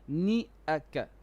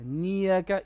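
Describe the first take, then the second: First: A glottal catch separates ni from aka. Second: A y glide joins ni to aka. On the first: The speaker calls it right. "Don't merge the ni with the hamza" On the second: The speaker calls it wrong. "Niyaka is not correct"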